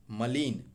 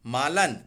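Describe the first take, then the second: First: मलिन as ma-lin; correct vowels. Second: मालन as maa-lan, louder; wrong vowels. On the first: Teacher giving the correction, मलिन as ma-lin. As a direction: say मलिन with short ma, then lin. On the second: Teacher showing the error, मालन as maa-lan. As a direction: say मालन with long first aa. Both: Shown as a demonstration. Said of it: "मात्रा का अंतर".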